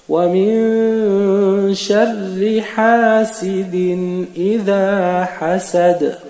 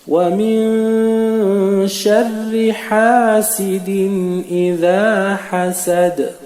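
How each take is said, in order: Both takes have the same delivery.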